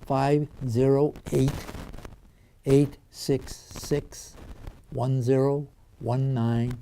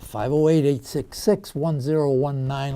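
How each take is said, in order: First: The number is said slowly and deliberately. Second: The number is said at normal, quicker speed.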